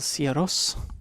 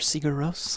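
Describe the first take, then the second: First: The name is said with Icelandic-style sounds. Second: The name is said with American English sounds. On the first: "I know that you say Siaros" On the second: "That's the American way of pronouncing it"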